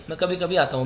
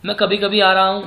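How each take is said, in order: First: Said in the usual way. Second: "आ रहा" said louder to flag the mistake; louder take stressing "आ", set up to be rejected; a loud wrong take with "आ रहा हूँ" hit hard; wrong version. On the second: Shown as a demonstration. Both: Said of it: "नहीं".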